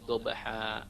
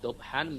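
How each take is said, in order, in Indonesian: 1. Kata itu berakhir dengan vokal terbuka yang panjang. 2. Kata itu berakhir dengan bunyi sengau n. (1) "menjadi dobha" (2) "Dari dobhan"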